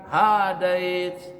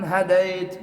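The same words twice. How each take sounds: First: The vowel in the word is held long. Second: The vowel in the word is kept short. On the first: The speaker calls it wrong. "bukan hadait" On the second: The speaker calls it right. "Tapi bacanya pendek"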